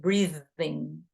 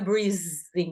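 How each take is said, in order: First: The middle consonant is a voiced th sound. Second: The middle consonant is a buzzing z sound. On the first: The speaker calls it right. "a gente coloca a língua nos dentes" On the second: The speaker calls it wrong. "não é breathing, não é Z"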